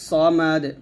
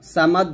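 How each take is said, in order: First: The first s sound is heavy and full. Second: The first s sound is light and thin. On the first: The speaker calls it right. "الصاد মোটা হবে" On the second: The speaker calls it wrong. "সামাদ বলবেন না"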